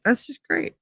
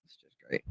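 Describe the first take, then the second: First: Higher, softer sarcastic aside; dry sarcasm about herself. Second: Much softer, near-silent repeat; under her breath. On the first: Sarcastic reaction to her mood. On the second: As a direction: let it fade to a mutter. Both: Real, not acted.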